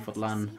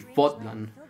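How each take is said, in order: First: The stress is on the second syllable. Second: The stress is on the first syllable. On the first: "without it" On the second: "you should pronounce it a little bit stronger"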